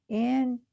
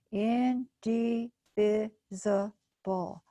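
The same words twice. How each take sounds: First: Said in the usual way. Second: Indivisible drawn out slowly, syllable by syllable. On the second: Shown as a demonstration. Teacher sounding out a big word slowly. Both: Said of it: "Let's try it again".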